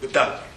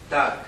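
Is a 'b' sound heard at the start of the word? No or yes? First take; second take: yes; no. First: It starts with a 'b' sound before the 'd'. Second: It starts directly with a 'd' sound. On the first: This is how it is said in Lhasa. "In Lhasa, I believe they do pronounce it Budang" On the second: This is the speaker's own regional pronunciation. "why do you pronounce that as Dag when there's a B and G"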